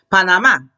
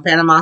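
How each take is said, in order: First: "Panamá" stressed on the last syllable; stress on final A. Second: "Panama" as PAN-uh-mah, first syllable stressed; English pronunciation. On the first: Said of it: "Accent A". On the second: Gives the English city name. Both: Shown as a demonstration.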